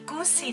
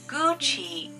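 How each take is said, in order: First: The middle consonant is not a 'ch' sound. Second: The middle consonant is a 'ch' sound. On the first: The speaker calls it wrong. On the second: The speaker calls it right. "The correct one is Gucci. Ch, ch"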